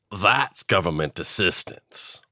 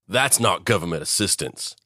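First: Slow, odd-voiced "That's"; mock government line, slow and rising; mocking twist. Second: Said in the usual way. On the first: Shown as a demonstration. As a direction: drag it out slowly in a put-on voice. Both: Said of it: "joke contrast".

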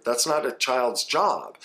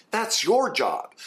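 First: Said in the usual way. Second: Your pitched high and drawn out slowly; stress on your. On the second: Real, not acted. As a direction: lean hard on your, slowly. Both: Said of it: "emphatic correction".

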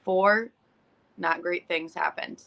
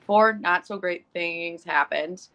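First: Said in the usual way. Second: "Four not so great things happened" said slowly, each word weighted; slow emphatic count. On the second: Shown as a demonstration. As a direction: spell out "Four" and lean on every word. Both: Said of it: "this is how bad my Monday was".

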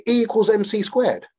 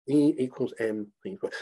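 First: Said in the usual way. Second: Quiet repeat. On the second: Shown as a demonstration.

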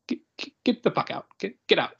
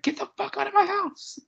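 First: Stammered dismissal, imitated. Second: Very high-pitched mock scream, half laughing; squealed, high imitation of screaming. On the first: Acting out Favreau's stammered dismissal. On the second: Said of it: "he just starts screaming".

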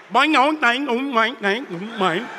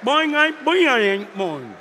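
First: Playful cartoon boings, bouncing each one; boing sound effects. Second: Boing sound effects. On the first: Preacher mimicking the book spreading worldwide, playful boings. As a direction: bounce out springy cartoon boings, the last ones dropping away. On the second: Pretend. Preacher mimicking the book spreading worldwide, bouncy boings. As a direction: toss off a few bouncy boings that sink at the end.

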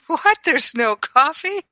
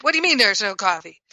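First: High startled what, light and quick; surprised. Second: Upset. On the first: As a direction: sound genuinely caught off guard, not upset. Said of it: "rather than just was surprised". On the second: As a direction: snap it quickly as if offended. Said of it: "If I were upset". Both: Shown as a demonstration.

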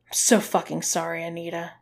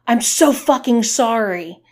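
First: Said in the usual way. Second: Loud, high yelled apology; yelling back. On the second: A narrator's reading. Man forced to repeat his apology, yelling back. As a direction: yell the apology right back. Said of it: "he yelled back".

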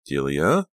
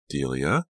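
First: Louder second call of her name; insistent call. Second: Said in the usual way. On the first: A narrator's reading. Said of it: "Brittany tried again". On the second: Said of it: "Brittany followed her".

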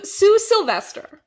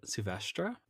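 First: Sue Sylvester loud and high, English sil-VES-ter. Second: Sylvestre said soo-VES-truh, French style; pronounce Sylvestre. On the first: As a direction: call out Sue Sylvester like the Glee coach. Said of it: "all I keep thinking of is Sue Sylvester". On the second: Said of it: "how do you pronounce it?". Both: Shown as a demonstration.

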